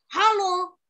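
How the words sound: It is said in an angry way. "Kalau sekarang ekspresinya marah"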